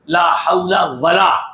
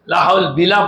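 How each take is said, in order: First: The second word begins with a w sound. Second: The second word begins with a b sound. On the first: The speaker calls it right. "वाव है" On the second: The speaker calls it wrong. "बिला पढ़ना गलत है"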